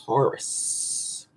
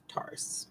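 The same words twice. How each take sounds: First: Breathy near-whisper of the sign's name; hushed. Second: Full unvoiced whisper, very soft. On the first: Astrologer introducing the sign in a hush. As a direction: drop the word to a hush. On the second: Astrologer whispering the sign's name for effect. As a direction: breathe the word Taurus as a secret. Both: Shown as a demonstration.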